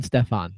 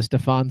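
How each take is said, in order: First: Stefan as STEF-ahn; short e. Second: Stefan as stuh-FAHN; reduced first vowel. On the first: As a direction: say Stefan with a clear "stef" at the front. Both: Shown as a demonstration. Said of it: "help with the Stefan Stefan thing".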